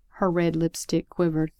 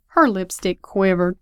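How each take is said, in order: First: Said in the usual way. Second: Louder, savoring repeat of a phrase; admiring echo, pushed louder; relishing echo. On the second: Acted. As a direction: repeat it with emphatic delight. Listener delightedly echoes the line.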